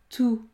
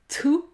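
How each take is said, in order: First: The T is soft, with the same energy as D. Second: The T is strong and explosive, unlike the D. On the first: The speaker calls it right. "Il faut utiliser la même énergie" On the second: The speaker calls it wrong. "Il ne faut pas dire dou, tout. Non"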